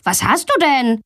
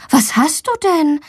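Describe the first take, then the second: First: Said in the usual way. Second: High-pitched concerned mother; worried. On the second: A narrator's reading. Mother fetching her sick daughter, worried. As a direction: ask with gentle alarm. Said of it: "fragt ihre Mama besorgt".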